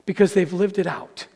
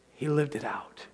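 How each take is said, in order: First: Said in the usual way. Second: Whispered, leaning in on lived; hushed emphasis. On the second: Acted. Preacher whispering the key point to the congregation, hushed. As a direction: let it drop to a whisper for weight.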